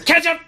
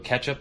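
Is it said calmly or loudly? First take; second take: loudly; calmly. First: It is yelled out loudly. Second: It is said calmly and quietly.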